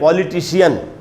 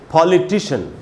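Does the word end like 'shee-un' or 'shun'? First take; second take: shee-un; shun. First: The ending is said as two syllables, shee-un. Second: The ending is said as one syllable, shun. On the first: The speaker calls it wrong. "इसको अपने देश में हम लोग पढ़ते हैं" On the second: The speaker calls it right. "उनका उच्चारण शियन नहीं होता, शन होता है"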